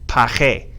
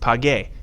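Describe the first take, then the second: First: The middle consonant is a throaty H sound. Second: The middle consonant is a hard G sound. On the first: The speaker calls it right. "the G in front of an E or an I takes a ch sound" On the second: The speaker calls it wrong. "we want this to be pronounced page, but it's not pronounced page"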